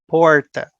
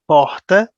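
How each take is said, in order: First: It is said in a countryside accent. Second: It is said in a Rio de Janeiro accent. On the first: "where I live, we say porta" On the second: "in Rio accent, they say porta"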